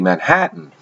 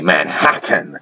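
First: The middle T is dropped or swallowed. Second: The middle T is fully and crisply pronounced. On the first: The speaker calls it right. "We say Manhattan" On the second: The speaker calls it wrong. "talk this way"

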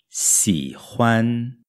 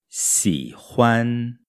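The two takes are said the same way.

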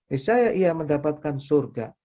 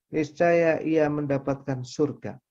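No difference in how they are said.

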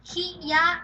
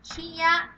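First: Two separate syllables are said one after another. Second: The same.

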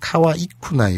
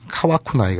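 First: The i sound after wa is kept. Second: The i sound after wa is dropped. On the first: The speaker calls it right. "요거 주의하시고요" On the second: The speaker calls it wrong. "카와쿠나이가 아니라"

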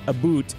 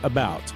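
First: The second syllable sounds like 'boot'. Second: The second syllable sounds like 'bout'. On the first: This is the exaggerated stereotype of Canadian speech. "Canadians say about instead of about" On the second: This is the ordinary non-Canadian pronunciation. "instead of about"

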